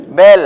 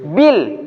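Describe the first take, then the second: First: Bel with an open e, punched loud; wrong bel. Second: Bil with a tight i sound; correct bil. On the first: Teacher contrasting bel with bil for students. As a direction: open the vowel wide in Bel. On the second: Teacher contrasting bil with bel for students. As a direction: say Bil crisp and narrow. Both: Shown as a demonstration. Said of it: "Bil dengan bel".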